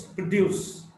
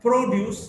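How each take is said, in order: First: "produce" as pro-DUCE; weak start, strong DUCE in "produce"; stress on second syllable. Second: "produce" as PRO-duce; stress on first syllable. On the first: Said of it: "stressed in the second syllable". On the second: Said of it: "stressed in the first syllable". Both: Shown as a demonstration.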